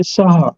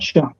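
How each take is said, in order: First: The name begins with a plain s sound. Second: The name begins with an sh sound. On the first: This is how Gujarati speakers say it. "in Gujarat, they say Saha" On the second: This is how others usually say it. "not Shah"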